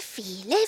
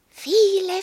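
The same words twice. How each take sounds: First: Said in the usual way. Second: Viele pitched higher and louder; stress on viele. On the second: A narrator's reading. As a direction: lift and stretch viele. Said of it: "viele Wünsche".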